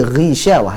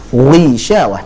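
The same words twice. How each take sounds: First: The gh sound is only lightly thickened. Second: The gh sound is strongly thickened. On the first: The speaker calls it right. "tapi Ghishawah" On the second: The speaker calls it wrong. "bukan Ghishawah"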